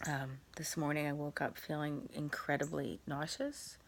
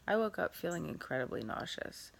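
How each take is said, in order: First: This morning said with a rising, questioning lilt on morning; unsure rising tune; questioning rise. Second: Nauseous said with a falling, statement tune; no rising question tune; flat statement. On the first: Real, not acted. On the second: Shown as a demonstration. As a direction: say it plainly as a fact. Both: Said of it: "I don't know why I said that like a question".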